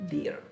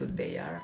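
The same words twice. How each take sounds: First: The word is said with an 'ee' vowel. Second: The word is read the way it is spelled. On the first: The speaker calls it right. "tapi kita bacanya dear" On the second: The speaker calls it wrong. "Kita nggak baca itu dear"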